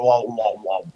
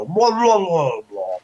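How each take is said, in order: First: Spoken "wah, wah, wah"; imitated creature noise. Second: High, swooping garbled "wah, wah"; Murloc noise imitation. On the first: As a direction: lightly mimic a creature's repeated "wah". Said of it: "I'm pretty sure they don't go". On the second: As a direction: gargle out a high Murloc call. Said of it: "they go".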